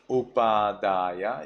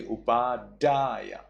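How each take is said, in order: First: Upadaya, unsharpened D; blunt D. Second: Upadaya with a sharp D. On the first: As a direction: say upadaya evenly, rising at the end. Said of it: "instead of upadaya". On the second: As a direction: strike the DA in upadaya. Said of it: "you say upadaya". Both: Shown as a demonstration.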